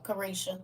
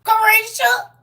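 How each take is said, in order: First: Said in the usual way. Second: Carisha yelled out high and loud, stretched across the room; hollering Carisha across a family cookout; loud name call. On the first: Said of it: "stop saying it like that". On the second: Shown as a demonstration. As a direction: call out Carisha like the embarrassing cousin. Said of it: "Let me stop saying it like that".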